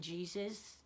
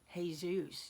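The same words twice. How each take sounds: First: The name is said the usual English way. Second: The name is said the Spanish way. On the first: The speaker calls it wrong. "You guys are just saying it wrong" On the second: The speaker calls it right. "is pronounced Jesus. ... Ask your Mexican friend"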